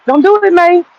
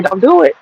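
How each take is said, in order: First: Same warning, pitched much higher and pressed; emphatic warning. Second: Said in the usual way. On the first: Retold or imitated. Warning himself off the elderberry, urgent and much higher. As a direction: repeat the warning, jumping up high on it.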